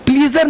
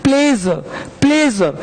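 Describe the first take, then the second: First: प्लीजर said with a long ee, like "pleeezer"; the wrong way, प्लीजर with ee; प्लीजर said as pleejar, the mistake to avoid; wrong pronunciation. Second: प्लेजर as in English pleasure, the right way; correct pronunciation. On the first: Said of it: "प्लीजर नहीं". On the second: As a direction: say प्लेजर carefully, short e. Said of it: "प्लीजर नहीं, प्लेजर". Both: Shown as a demonstration.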